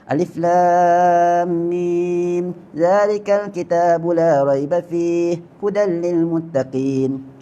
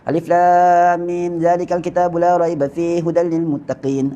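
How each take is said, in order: First: It is recited at a moderate pace. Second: It is recited very quickly. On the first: "Tadwin ni lambat sikit daripada hadar" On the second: "orang baca laju ... itu namanya hadar"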